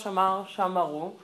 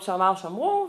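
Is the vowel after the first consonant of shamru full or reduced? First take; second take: full; reduced. First: The vowel after the first consonant stays full. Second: The vowel after the first consonant is reduced. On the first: The speaker calls it wrong. "ולא" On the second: The speaker calls it right. "אומרים"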